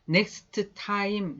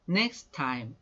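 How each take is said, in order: First: Both t sounds are pronounced separately. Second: The two t sounds merge into one. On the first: The speaker calls it wrong. "이렇게 인사하지 않고" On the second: The speaker calls it right. "time의 t가 둘이 만날 때는 하나만 써준다는 거"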